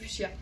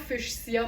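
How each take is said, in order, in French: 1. Il se prononce de la manière habituelle. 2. Il se prononce comme il s'écrit. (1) "mais euh, c'est fuchsia" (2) "je suis tout le temps en train de prononcer fuchsia pour me rappeler comment ça s'écrit"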